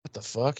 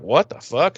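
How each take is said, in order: First: Soft, puzzled question to himself; quietly acted confusion, rising at the end; retold dazed murmur. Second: Mildly startled questioning; lightly acted confusion, rising at the end; retold bewilderment. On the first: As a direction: say it under the breath, bewildered. Retold dazed reaction, said softer. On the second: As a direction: ask it in puzzled disbelief. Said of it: "he kinda stutter".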